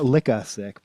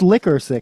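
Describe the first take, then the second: First: The first word ends without an R sound. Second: The first word ends with a hard R sound. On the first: "It's not Licka Sick" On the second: "I say it with like the hard R"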